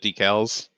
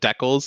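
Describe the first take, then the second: First: It is said the non-Canadian way. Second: It is said the Canadian way.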